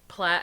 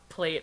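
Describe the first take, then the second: First: The vowel rhymes with the vowel in flat. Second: The vowel rhymes with the vowel in eight. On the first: The speaker calls it right. "it's plat as in flat" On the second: The speaker calls it wrong. "not plate as in eight"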